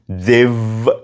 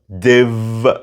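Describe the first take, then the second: First: The words merge into one contracted syllable. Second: The words merge into one contracted syllable.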